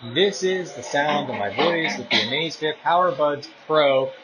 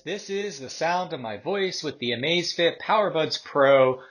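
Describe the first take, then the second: First: The voice is heard over background noise. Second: The voice is heard without background noise.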